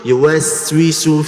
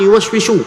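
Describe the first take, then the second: First: The consonant near the end is 's'. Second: The consonant near the end is 'sh'. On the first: The speaker calls it right. "sin, sa, sisu" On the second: The speaker calls it wrong. "Bukan yuwaswishu"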